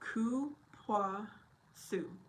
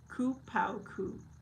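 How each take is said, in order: First: The word ends with a "soo" sound. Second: The word ends with a "koo" sound. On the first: The speaker calls it right. "it's pronounced Ku Pua Su. Oh, I was so wrong" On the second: The speaker calls it wrong. "I don't know if I said it correctly or not"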